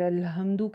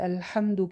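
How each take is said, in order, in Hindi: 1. h एक सादी, नरम, साँस वाली आवाज़ है। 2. h एक कसी हुई, गले वाली आवाज़ है।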